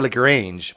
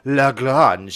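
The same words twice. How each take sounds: First: The name is said with an English pronunciation. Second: The name is said with a French pronunciation. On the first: This is how most people say it. The speaker calls it wrong. "most people say Lagrange" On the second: This is the fancy original way of saying it. The speaker calls it right. "I think it's like Lagrange. It's all like fancy"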